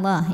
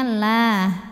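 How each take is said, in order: First: The l is heavy and thick. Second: The l is light and thin. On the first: The speaker calls it wrong. "bukan lah ya" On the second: The speaker calls it right. "maka dibacanya tipis. Jadi ini bunyinya lah"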